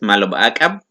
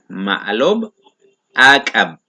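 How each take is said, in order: First: It is said fast, words run together. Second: It is said slowly, word by word.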